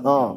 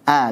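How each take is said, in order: First: The vowel is thick and sounds close to o. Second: The vowel is a plain open a sound. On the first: The speaker calls it wrong. "jadi tebal" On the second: The speaker calls it right.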